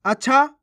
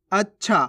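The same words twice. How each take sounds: First: अच्छा as "a-chha", higher and louder; आधे च के बिना. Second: अच्छा with doubled consonant, "ach-chha"; आधे च के साथ. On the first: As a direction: say अच्छा with a single छ, pitched up. (अच्छा को "अछा" बोलकर) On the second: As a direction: hold the half च in अच्छा, then release छा. (अच्छा को "अच्-छा" बोलकर) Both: Shown as a demonstration. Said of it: "आ रहा है फर्क समझ में".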